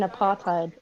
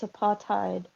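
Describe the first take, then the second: First: The middle is said with a 'th' sound. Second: The middle is said with a plain 't' sound. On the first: The speaker calls it wrong. "You don't pronounce the th like in apartheid" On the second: The speaker calls it right. "It's tide"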